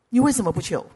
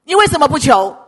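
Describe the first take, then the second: First: Said in the usual way. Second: Loud, higher-pitched challenge; forceful challenge. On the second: Real, not acted. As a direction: demand an answer loudly. Repeated challenge to congregation, first forceful. (高声质问)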